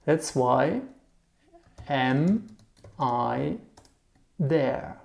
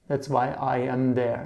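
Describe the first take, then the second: First: "That's why... am... I... there" with long pauses; word by word. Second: Said in the usual way. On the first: Shown as a demonstration. Teacher translating the German word order, word by word.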